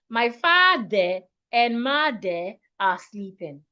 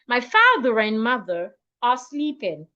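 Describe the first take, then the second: First: The R is not linked to the next vowel. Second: The R links smoothly into the next vowel. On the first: The speaker calls it wrong. "instead of" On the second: The speaker calls it right. "I can say"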